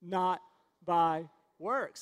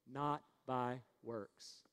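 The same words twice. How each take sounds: First: Louder, word by word, punchy; emphatic recitation. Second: Slow, low and soft, word by word; leading a recitation. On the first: Preacher making the congregation repeat it, firm and loud. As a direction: drive each word home for the crowd. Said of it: "I think we need to say it again". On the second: Preacher leading the congregation to repeat, slow and subdued. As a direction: spell it out slowly for repeating. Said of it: "Say it with me". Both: Shown as a demonstration.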